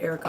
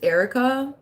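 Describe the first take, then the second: First: The name is pronounced in the usual way. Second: The name is pronounced in an odd way. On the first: The speaker calls it right. "Everybody just says it like Erica" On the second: The speaker calls it wrong. "I don't know why I pronounced it weird like that"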